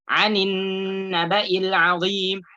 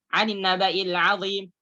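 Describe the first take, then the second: First: The doubled n is held long. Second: The doubled n is cut short. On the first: The speaker calls it right. "Nunnya bertasydid" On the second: The speaker calls it wrong. "Tidak dibaca"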